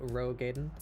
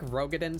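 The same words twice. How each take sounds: First: The stress is on the first syllable. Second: The stress is on a later syllable. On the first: The speaker calls it right. "put the emphasis on the first syllable" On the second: The speaker calls it wrong. "sounds a bit goofy"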